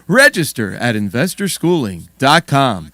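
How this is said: It is said in a put-on announcer voice.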